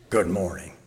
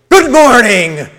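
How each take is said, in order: First: It is grunted in a grumpy tone. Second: It is said with an angry tone. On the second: "I was conveying a fake anger"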